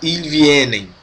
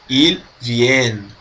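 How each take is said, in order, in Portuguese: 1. O verbo termina com uma sílaba extra pronunciada. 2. O verbo termina cortado, sem sílaba extra. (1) "Não se fala il vienen" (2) "Vai meio que cortar"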